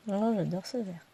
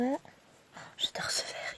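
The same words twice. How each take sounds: First: Said in the usual way. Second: Hushed whisper of admiration; whispered, fond gasp over a green thread; whispered delight. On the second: Real, not acted. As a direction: breathe it out like a secret crush on the colour.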